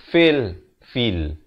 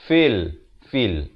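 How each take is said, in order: No difference in how they are said.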